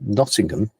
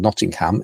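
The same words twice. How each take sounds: First: It is said with a British pronunciation. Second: It is said with an American pronunciation.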